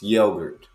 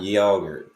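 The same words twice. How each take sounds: First: "yogurt" with a long o, YOH-gurt; long-o pronunciation. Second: "yogurt" mimicked with a short o, YOG-urt; British way, mimicked. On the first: Partner correcting the Briton, long-o pronunciation. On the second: Partner rejecting the British way, mimicked short o. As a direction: say "yogurt" as YAH-gurt, the rejected way. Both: Shown as a demonstration. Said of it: "It's not yogurt".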